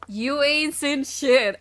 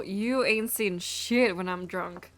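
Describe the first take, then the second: First: "You ain't seen shit" drawn out slowly and pitched up; slow, higher, punched "You ain't seen shit"; emphatic repeat. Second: Said in the usual way. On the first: Real, not acted. Emphatic repeat of own boast.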